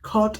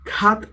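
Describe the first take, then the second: First: The vowel is a rounded aw sound. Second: The vowel is an open ah sound. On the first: The speaker calls it right. "ഖോട്ട് എന്നാണ് പറയുന്നത്" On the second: The speaker calls it wrong. "നമ്മൾ ഖാത്ത് എന്നോ ... അല്ല പറയുന്നത്"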